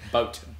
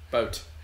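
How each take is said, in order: First: The final T sound is clearly pronounced. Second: The same.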